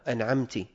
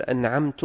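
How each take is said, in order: First: "أنعمت" ending in -ti; kasra on ta. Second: "أنعمت" ending in -tu; damma on ta. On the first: Teacher shows the second error, "أنعمت" pronounced an'amti. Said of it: "أو بكسر التاء". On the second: Teacher shows a meaning-changing error, "أنعمت" pronounced an'amtu. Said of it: "بضم التاء". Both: Shown as a demonstration.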